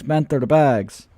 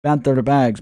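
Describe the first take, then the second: First: Banter bags stretched out very slowly in the put-on accent; slow accented drawl. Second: Loud put-on accent on banter bags; Crypto Banter accent. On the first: Streamer mocking rival's giveaway, slow drawn-out accent. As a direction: drag out each word, mocking. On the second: Streamer mocking rival's giveaway, loud put-on accent. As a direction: bark the brand name in his accent. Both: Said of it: "doing an accent on crypto banter".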